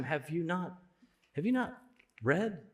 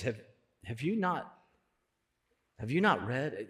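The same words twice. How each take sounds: First: Softer, gentle question with a lifted you; gentle but direct. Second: Said in the usual way. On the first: Retold or imitated. Preacher voicing Jesus to the Pharisees, gently. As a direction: ask it kindly but pointedly. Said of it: "so gentle and so direct". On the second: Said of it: "Jesus is so gentle".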